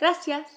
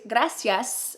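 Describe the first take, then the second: First: The final s is softened or dropped. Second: The final s is pronounced fully.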